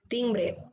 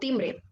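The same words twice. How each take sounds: First: The sound before the b is an n. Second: The sound before the b is an m. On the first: The speaker calls it wrong. "en vez de la M, pronunciar más la, la N" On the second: The speaker calls it right. "y ya lo pronuncio correctamente"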